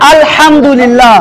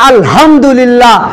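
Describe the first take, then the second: First: Every letter is said plainly, without extra pressure. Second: One letter is pressed harder and pitched higher. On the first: All praise belongs to God. The speaker calls it right. "সমস্ত প্রশংসা কার?" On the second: All worn-out household junk belongs to God. The speaker calls it wrong. "একটা অক্ষর একটু চেপে বলার জন্য আর একটু উঁচু করে বলার জন্য অর্থ পাল্টে গেল"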